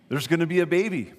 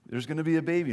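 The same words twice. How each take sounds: First: Excited announcement. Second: Said in the usual way. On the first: Shown as a demonstration.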